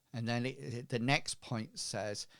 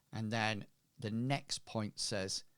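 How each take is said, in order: No difference in how they are said.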